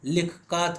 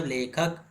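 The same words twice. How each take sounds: First: "लिख का" as two pieces, short i and long ā; unblended pronunciation. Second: "लेखक" as one word with long e; blended pronunciation. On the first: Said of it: "लिख का थोड़ी ना होगा". ("लिख का" को बिना बदले, अलग-अलग) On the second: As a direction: blend it into "लेखक", short final vowel. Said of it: "pronunciation, उच्चारण के साथ". ("लेखक" में ए की मात्रा, जोड़कर) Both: Shown as a demonstration.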